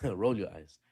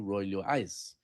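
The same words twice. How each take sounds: First: "Roll" with a clear long o; "Roll" said "rohl", rounded o not oi; roll corrected. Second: "roll" said like "royal" with oi vowel; "roll" as "roy-l", oi sound; roll pronounced royal. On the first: Shown as a demonstration. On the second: Real, not acted.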